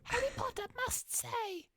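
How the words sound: It is said in a high, squeaky, nasal voice.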